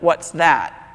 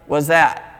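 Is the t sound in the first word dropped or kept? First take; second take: kept; dropped. First: The t is kept, sounding like 'what's that'. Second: The t is dropped, sounding like 'was that'. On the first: "instead of" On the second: "Only it sounded like"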